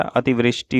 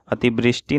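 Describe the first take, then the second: First: अतिवृष्टि said as ativrishti; correct v sound. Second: अतिवृष्टि said as atibrishti. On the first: Teacher correcting the word, अतिवृष्टि with a v. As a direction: keep v in अतिवृष्टि. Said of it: "अतिवृष्टि होता है". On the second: Teacher showing the mistake, अतिवृष्टि with a b. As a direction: put b in अतिवृष्टि. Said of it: "अतिवृष्टि नहीं होता". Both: Shown as a demonstration.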